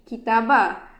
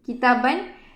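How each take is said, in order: First: The word ends with a long open vowel. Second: The word ends with an n sound. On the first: The speaker calls it wrong. "Kita tak baca dengan kitabah" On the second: The speaker calls it right. "dia punya silent letter iaitu pada alif di hujung perkataan"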